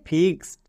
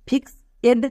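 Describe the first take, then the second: First: The ending is only a 'd' sound. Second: The ending is a separate 'ed' syllable. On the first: The speaker calls it right. "ইডি এর জন্য ডো" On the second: The speaker calls it wrong. "কিন্তু এটা সম্পূর্ণ ভুল উচ্চারণ।"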